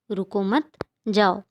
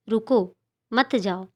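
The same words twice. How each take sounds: First: "रुको मत" joined, a clear break, then "जाओ"; pause after मत. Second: "रुको", a clear break, then "मत जाओ" together; pause after रुको. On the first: Teacher reads the second sentence to children, pausing after "मत". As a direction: run "रुको मत" together, stop, then say "जाओ". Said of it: "रुकने से मना किया जा रहा है". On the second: Teacher reads the first sentence to children, pausing after "रुको". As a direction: say "रुको", stop, then run "मत जाओ" as one phrase. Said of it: "के बाद अल्प विराम लगा है". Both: Shown as a demonstration.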